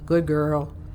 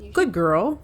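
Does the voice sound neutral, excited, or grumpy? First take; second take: grumpy; neutral. First: It is said in a grumpy tone. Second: It is said in a neutral tone.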